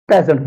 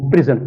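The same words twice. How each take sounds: First: present said PREZ-ent, first syllable stressed; strong PRE, light zent in present; noun stress. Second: present said pri-ZENT, second syllable stressed; light pri, strong ZENT in present; verb stress. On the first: Teacher contrasting noun with verb, stress on PRE. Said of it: "noun या adjective जो हो". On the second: Teacher contrasting verb with noun, stress on ZENT. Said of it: "as verb इसको present पढ़ते हैं". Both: Shown as a demonstration.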